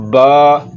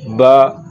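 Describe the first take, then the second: First: "बा" with the vowel stretched long; over-lengthened "बा"; drawn out. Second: Said in the usual way. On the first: Shown as a demonstration. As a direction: hold the vowel of "बा" too long. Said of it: "ज़बर को लंबा नहीं करना". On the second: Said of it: "इसको ऐसे नहीं पढ़ना".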